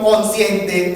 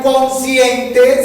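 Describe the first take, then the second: First: "consciente" reduced to "conciente"; slow "consciente" without the extra S after N; S after N dropped. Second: "consciente" with the S after N stressed, "cons-ciente"; loud, drawn-out "consciente", sounding the S of "cons"; S after N pronounced. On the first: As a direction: say "consciente" as "con-ciente". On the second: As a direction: say "consciente" high and slow with its full S. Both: Shown as a demonstration. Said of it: "no pronunciar las eses que siguen a la N".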